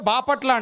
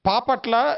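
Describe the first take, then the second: First: The name starts with a voiced b sound. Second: The name starts with a voiceless p sound. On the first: This is how Telugu speakers say the name. The speaker calls it right. "మనమైతే బాపట్ల అంటాం" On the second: This is how Tamil speakers said the name. The speaker calls it wrong. "కాకపోతే మ- ఏ- పాపట్ల ఏదో చెప్పారు"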